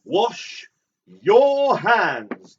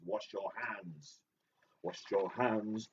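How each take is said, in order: First: High, loud mock command; hammed-up yell, words drawn apart; shouted order. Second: Slow, softer quoted instruction; quiet, measured recital; subdued repetition. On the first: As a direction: belt out each word as an order. Quoting a line as a loud order. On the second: Acted.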